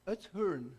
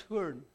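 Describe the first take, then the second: First: Said in the usual way. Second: Oudtshoorn said with an American accent, r-coloured ending. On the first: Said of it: "trying to say it with an American accent". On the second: Shown as a demonstration. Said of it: "if you're an Afrikaans person and trying to say it with an American accent".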